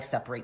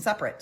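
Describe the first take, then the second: First: "separate" with a clear "rate" at the end; verb pronunciation. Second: "separate" with a weak "rit" at the end; adjective pronunciation. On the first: Recapping the two meanings, "separate" with a long final vowel. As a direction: pronounce "separate" SEP-uh-RATE. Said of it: "tit for tat over the word separate". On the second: Recapping the two meanings, "separate" with a short final vowel. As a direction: pronounce "separate" SEP-rit. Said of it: "you could mean it as separate". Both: Shown as a demonstration.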